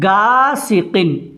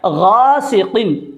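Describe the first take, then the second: First: It begins with a hard g sound. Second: It begins with a throaty gh sound. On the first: The speaker calls it wrong. "लोग पढ़ते हैं गासिकिन" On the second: The speaker calls it right. "लिखा तो होता है गासिकिन"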